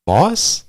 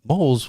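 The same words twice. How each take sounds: First: "Moss?" squeaked high and loud on a rising tune; sudden realization. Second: High incredulous repeat of Moles; puzzled question. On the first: Realizing Vel meant sea moss, telling friend, high surprised. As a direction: pop "Moss?" up high as the penny drops. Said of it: "I was like". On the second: Retelling his confusion about the supplement to friend, puzzled. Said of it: "And I'm like". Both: Retold or imitated.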